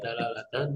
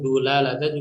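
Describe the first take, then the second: First: The first syllable has the vowel a. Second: The first syllable has the vowel u. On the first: "ini bisa dibaca dilalatan atau dalalatan bisa" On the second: "atau bahkan dulalatan juga bisa"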